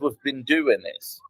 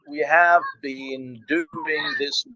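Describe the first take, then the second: First: We have is shortened to one syllable, we've. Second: We have is said as two full words. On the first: "He said we've been doing this" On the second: "He didn't say"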